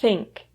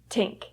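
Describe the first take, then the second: First: The word begins with a th sound. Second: The word begins with a plain t sound. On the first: The speaker calls it right. "making sure that your tongue comes out of your mouth" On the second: The speaker calls it wrong. "The singer says tink"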